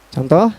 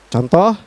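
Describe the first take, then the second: Both takes have the same delivery.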